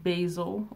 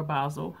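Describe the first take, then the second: First: "basil" said BAY-zul; first vowel of "basil" as in "bay"; basil with long A. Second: "basil" said BAH-zul; first vowel of "basil" as in "spa"; basil with broad A. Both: Shown as a demonstration. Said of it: "however you pronounce it".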